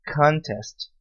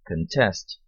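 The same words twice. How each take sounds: First: Contest stressed on the first syllable, CONtest; noun stress. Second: Contest stressed on the second syllable, conTEST, with a reduced first vowel; verb stress. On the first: (Contest com tônica na primeira sílaba, CONtest) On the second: (Contest com tônica na segunda sílaba, conTEST) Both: Shown as a demonstration. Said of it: "sílaba tônica diferente".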